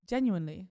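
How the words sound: It is said in a British accent. "can you say it British?"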